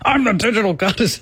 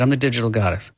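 First: It is said forcefully, with conviction. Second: It is said tentatively, without conviction.

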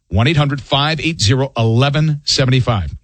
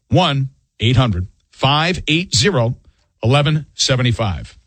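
First: The number is read at normal speed. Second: The number is read slowly.

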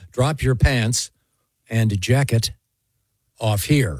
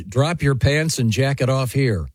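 First: It is read slowly, with careful precision. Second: It is read quickly, without special care.

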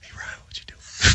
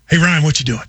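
First: It is spoken in a whisper. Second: It is spoken in a normal voice.

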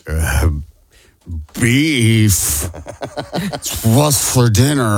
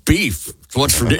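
First: It is said haltingly, with an off cadence. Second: It is said smoothly, without hesitation.

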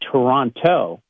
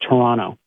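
First: It is the American way, with the second T. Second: It is the local way, without the second T.

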